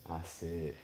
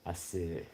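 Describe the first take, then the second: No difference in how they are said.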